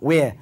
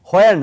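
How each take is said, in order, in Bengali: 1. এটি একটি সাধারণ w ধ্বনি দিয়ে শুরু হয়। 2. এটি একটি শ্বাসযুক্ত h-এর মতো ধ্বনি দিয়ে শুরু হয়। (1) "এগুলোর উচ্চারণগুলো উও দিয়ে হবে" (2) "হোয়ার না"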